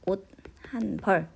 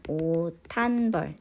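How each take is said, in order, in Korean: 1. 옷은 t로 끝나고, h는 따로 발음합니다. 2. t와 h가 합쳐져 하나의 거센 t가 됩니다. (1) "이 시읒이 디귿으로 발음이 되죠? 그래서 일단 옷, 한, 벌 이렇게 됩니다" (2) "자음 축약이 일어나고요"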